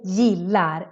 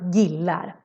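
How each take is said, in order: First: The first sound is a soft y-like sound. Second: The first sound is a hard g. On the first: The speaker calls it right. "the G changes the sound. So you need to say gillar" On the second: The speaker calls it wrong. "and not gillar"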